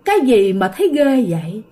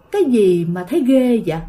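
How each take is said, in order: First: A lightly voiced grinning ghost, echoing; ghost's voice. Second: A lightly voiced strange man, echoing; man's voice. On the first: Storyteller voicing the fanged ghost on the branch, a hint of eerie taunt. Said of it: "nó nói vậy nè". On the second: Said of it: "giọng của một người đàn ông".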